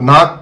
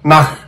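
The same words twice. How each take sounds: First: The word ends with a hard k stop. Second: The word ends with a raspy throat hiss. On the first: The speaker calls it wrong. "నాక్ కాదు" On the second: The speaker calls it right. "కక్కాలి"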